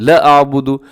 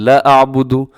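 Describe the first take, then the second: The two takes are said the same way.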